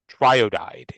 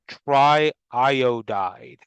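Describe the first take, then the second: First: The two I sounds merge into one. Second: Two I sounds are said in a row. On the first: The speaker calls it wrong. "instead of" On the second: The speaker calls it right. "we still say the two I's"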